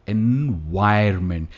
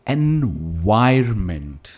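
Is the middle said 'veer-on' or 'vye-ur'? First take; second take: vye-ur; vye-ur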